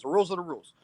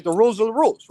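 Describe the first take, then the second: First: Softer, settled restatement of rules; quiet conclusion. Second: Louder, higher, pressing on rules; firm insistence. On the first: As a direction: let it drop, case closed. Repeating the rule as a closer. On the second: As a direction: drive home that the rules are the rules. Insisting the rules are fixed. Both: Real, not acted.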